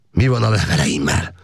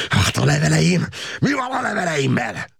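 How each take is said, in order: First: Said in the usual way. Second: High-pitched yell full of hatred; hateful shout. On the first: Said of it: "Az üvöltéstől". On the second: A narrator's reading. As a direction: scream the question at the officer. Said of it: "sziszegő gyűlölettel kiáltotta".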